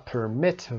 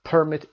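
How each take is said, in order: First: "permit" stressed on MIT; second-syllable stress. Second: "permit" stressed on PER; first-syllable stress. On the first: Teacher giving students the verb, "permit" stressed on MIT. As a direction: verb form, per-MIT. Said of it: "وربش هست". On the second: Teacher giving students the noun, "permit" stressed on PER. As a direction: noun form, PER-mit. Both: Shown as a demonstration.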